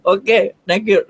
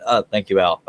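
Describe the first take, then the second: First: High-pitched goofy thanks; silly put-on voice. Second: Said in the usual way. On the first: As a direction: squeak out a comic thank-you. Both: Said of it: "the voices are starting".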